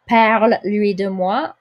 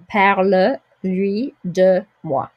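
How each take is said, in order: First: The final e of parle is silent. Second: The final e of parle is pronounced. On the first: This is ordinary speech. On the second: This fits the rhythm of the song.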